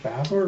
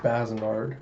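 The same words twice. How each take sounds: First: "Baznard" said in two syllables, BAZ-nard; two-syllable name. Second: "Bazinard" said in three syllables, BAZ-i-nard; three-syllable name. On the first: Narrator unsure of the name, "Baznard" in two syllables. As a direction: say "Baznard" with no middle vowel. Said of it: "is it Baznard or was it Bazinard". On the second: Narrator trying another version, "Bazinard" in three syllables. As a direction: add a middle vowel in "Bazinard". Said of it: "or was it Bazinard". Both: Shown as a demonstration.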